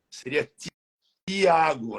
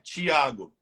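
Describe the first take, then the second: First: The name begins with a plain t sound. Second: The name begins with a ch sound. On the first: This is the Spanish-like way. The speaker calls it right. "Como diz no espanhol" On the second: This is the usual Brazilian way. The speaker calls it wrong. "A gente fala no Brasil Tiago"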